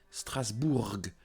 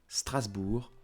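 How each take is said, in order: First: The final letter is pronounced at the end. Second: The final letter is silent at the end. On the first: The speaker calls it wrong. "Don't say Strasbourg" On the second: The speaker calls it right. "do not pronounce them"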